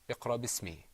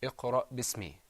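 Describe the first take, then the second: First: The glottal stop after iqra is left out. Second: The same.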